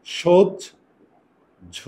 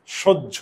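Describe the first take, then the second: First: সহ্য stretched very slowly as shojjho; slow demonstration. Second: Said in the usual way. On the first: Shown as a demonstration. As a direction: sound out সহ্য at a crawl. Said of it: "এটাকে উচ্চারণ করলে আমরা এইভাবে করি". (সহ্য খুব ধীরে টেনে বলা) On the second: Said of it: "এই যে দেখো".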